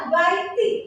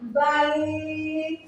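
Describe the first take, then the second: First: The word ends with an extra short vowel. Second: The word ends on a bare consonant. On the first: The speaker calls it wrong. "bukan dibaca baiti" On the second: The speaker calls it right. "tetapi dibacanya bait"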